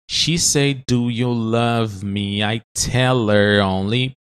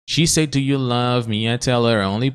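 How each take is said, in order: First: It is said in slow motion. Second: It is said at normal speed.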